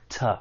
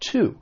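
First: The word is soft with a schwa vowel. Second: The word is stressed with a full vowel. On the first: "When unstressed, it may sound like it has that schwa sound" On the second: "When stressed, it sounds like, well, just like I said, to"

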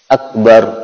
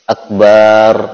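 First: The vowel after the b is short. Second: The vowel after the b is drawn out long. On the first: The speaker calls it right. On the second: The speaker calls it wrong. "tidak boleh memanjangkan huruf ba pada kata akbar. Berarti tidak boleh akbar"

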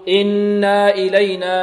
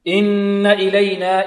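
First: The vowel after the doubled n is lengthened. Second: The vowel after the doubled n stays short. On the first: The speaker calls it wrong. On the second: The speaker calls it right.

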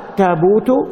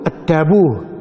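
First: The word ends with a t sound. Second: The word ends with an h sound. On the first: This is the Quraysh form. "قالوا التابوت بالتاء" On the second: This is the form Zayd used. "التابوت بالهاء، فتقول التابوه"

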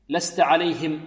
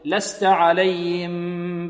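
First: The h sound is pronounced clearly and fully. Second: The h sound is weak and barely heard. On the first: The speaker calls it right. "لابد من توضيح الهاء" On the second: The speaker calls it wrong. "لأن بعض الطلاب ماذا يقول؟"

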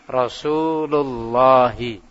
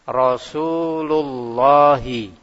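The two takes are said the same way.

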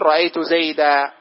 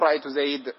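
First: The name ends with a long a vowel. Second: The name ends on a bare d consonant. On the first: The speaker calls it right. "أما إذا جاء المنصوب تقول رأيت زيدا" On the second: The speaker calls it wrong. "لا تقول رأيت زيد"

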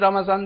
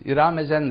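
First: The word starts directly with the r sound. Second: An extra vowel is added before the r sound. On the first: This is the standard form. "kimse Ramazan demez" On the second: This is how villagers in Anatolia say it. "Başına bir E takısı getirmek suretiyle"

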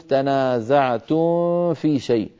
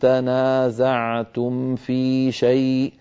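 First: The m before f is hidden, barely heard. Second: The m before f is pronounced clearly. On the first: The speaker calls it wrong. "ولا نقول تنازعتم في شيء، ها لا نخفي الميم عند الفاء" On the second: The speaker calls it right. "لابد من بيان الميم الساكنة والحرص على عدم خفائها، هكذا يكون البيان"

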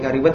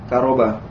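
First: The second syllable has an i vowel. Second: The second syllable has an a vowel. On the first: The speaker calls it wrong. "Walaupun barangkali ada yang memakai kariba" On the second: The speaker calls it right. "setelah merujuk ke kamus ternyata karoba ya"

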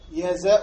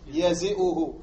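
First: The vowel before the glottal stop is a. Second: The vowel before the glottal stop is i. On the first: The speaker calls it right. "قياسه الفتح" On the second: The speaker calls it wrong. "ولا تقول يزئه"

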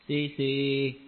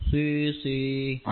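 Both takes have the same delivery.

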